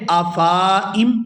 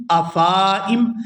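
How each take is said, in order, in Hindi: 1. 'f' के बाद वाला स्वर खींचकर लंबा किया गया है। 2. 'f' के बाद वाला स्वर खींचकर लंबा किया गया है।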